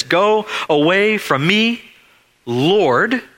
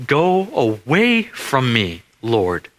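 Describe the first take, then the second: First: High cry of a man on his face; a lightly acted anguished cry. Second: Slow, hushed plea from the knees; a lightly voiced broken plea; humble plea. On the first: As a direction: cry it out higher, pleading. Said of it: "he cries out to Jesus". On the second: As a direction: beg him slowly to go away. Peter falls at Jesus' feet.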